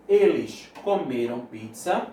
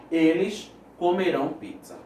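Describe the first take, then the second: First: "comeram" slowly, with the weight on ME; stress on the middle syllable. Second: "comerão" with the weight on RÃO; stress on the last syllable. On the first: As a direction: say "comeram" as co-ME-ram in a slow sentence. ("comeram" com a tônica no ME) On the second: ("comerão" com a tônica no RÃO final) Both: Shown as a demonstration. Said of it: "a leitura também influencia".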